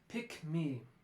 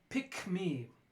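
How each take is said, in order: First: The k sound is kept before me. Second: The k sound is kept before me.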